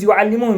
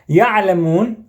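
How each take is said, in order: First: The first syllable has a u vowel. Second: The first syllable has an a vowel. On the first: They teach. "on the ya with a dhamma" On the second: They know. "if you change the tashkil into a fatha"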